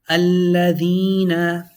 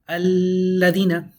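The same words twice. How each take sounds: First: The L is doubled and the ee long. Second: The long ee vowel is cut short. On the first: The speaker calls it right. "You have a double sounding L, a double sounding E" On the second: The speaker calls it wrong. "incorrect to say alladina. You took out the ya"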